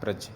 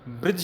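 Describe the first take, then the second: First: The vowel after 'br' is an 'a' sound. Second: The vowel after 'br' is an 'i' sound. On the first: The speaker calls it right. "सही शब्द है ब्रज" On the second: The speaker calls it wrong. "ब्रिज शब्द नहीं"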